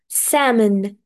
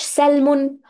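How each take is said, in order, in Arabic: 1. صوت L صامت في الكلمة. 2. صوت L يُنطق في الكلمة. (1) "حرف ال لا ينطق تماما" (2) "بلاش سلمون وسلمون والحاجات دي"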